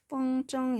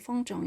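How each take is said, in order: First: The second syllable has a high level tone. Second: The second syllable is light and toneless. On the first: This is the everyday habitual pronunciation. "저는 风筝 이렇게 일성으로 많이 하는데" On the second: This follows the dictionary pronunciation. "사전대로 경성으로 风筝 이렇게 할게요"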